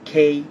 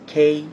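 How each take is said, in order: Both takes have the same delivery.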